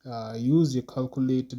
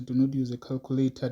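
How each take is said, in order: First: Said in the usual way. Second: Quick correction, NOT hit hardest; "Do not use a calculator" with NOT stressed, said fast. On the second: Shown as a demonstration. Teacher correcting the class, stressing NOT.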